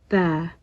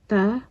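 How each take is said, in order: First: The vowel is held longer. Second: The vowel is short. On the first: "just a few seconds longer" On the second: "ta is just ta"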